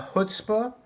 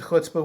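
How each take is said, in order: First: It begins without the rough, guttural throat sound. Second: It begins with a rough, guttural throat sound. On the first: "is easier for Americans" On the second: "which is a bit more guttural"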